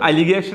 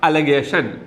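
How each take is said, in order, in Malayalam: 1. രണ്ടാം അക്ഷരത്തിൽ വ്യക്തമായ 'ih' സ്വരമുണ്ട്. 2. രണ്ടാം അക്ഷരത്തിൽ ലഘുവായ 'uh' സ്വരമുണ്ട്. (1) "അലിഗേഷൻ എന്നല്ല"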